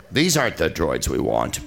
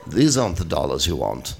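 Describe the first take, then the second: First: Lower, wooden extra's line reading; Stormtrooper voice. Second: Lower, flat stormtrooper line. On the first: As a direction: read it like a stiff stormtrooper. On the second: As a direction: deliver it like a wooden stormtrooper. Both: Pretend. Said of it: "Stormtrooper line readings".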